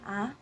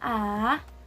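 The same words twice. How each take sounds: First: The pitch rises like a question. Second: The pitch goes down in the throat. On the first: "pointed upwards ... sound like you're asking a question" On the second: "your throat sounds like it's also going downwards"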